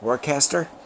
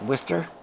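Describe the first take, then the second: First: It is said the way the spelling looks. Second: It is said in the standard local pronunciation. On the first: This is how outsiders read the name. The speaker calls it wrong. "to everybody else, it looks like Worcester" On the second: This is the accepted pronunciation. The speaker calls it right. "it's pronounced Worcester"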